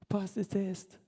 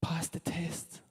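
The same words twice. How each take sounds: First: Quiet voiced "Pass the test", softer than usual; soft plain repeat. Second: Slow unvoiced whisper of Pass the test. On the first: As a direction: say "Pass the test" again gently, aloud. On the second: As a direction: breathe "Pass the test" slowly as an urgent secret. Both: Shown as a demonstration. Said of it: "I cannot emphasize this enough".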